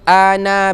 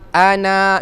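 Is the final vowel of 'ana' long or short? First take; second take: short; long. First: The final vowel is short, one beat. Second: The final vowel is long, two beats. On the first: The speaker calls it right. "dibaca dengan satu harakat saja" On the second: The speaker calls it wrong. "bacaan yang salah adalah wa ma ana bil ana, dua harakat dibaca"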